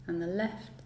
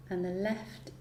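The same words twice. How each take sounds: The two takes are said the same way.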